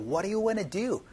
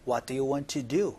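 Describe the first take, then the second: First: Want to is run together casually. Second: Want to is said fully and clearly.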